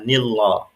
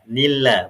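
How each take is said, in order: First: The L sound is thick and heavy. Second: The L sound is thin and light. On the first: The speaker calls it wrong. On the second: The speaker calls it right. "lam pada lafaz Allah itu suaranya menjadi tipis"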